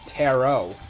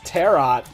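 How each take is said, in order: First: The final T is silent. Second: The final T is sounded. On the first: This is how the word is actually said. "I like know it's tarot. ... The T's silent" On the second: This is how the word is spelled. "It's spelled it's spelled as tarot"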